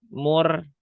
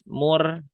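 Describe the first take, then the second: No difference in how they are said.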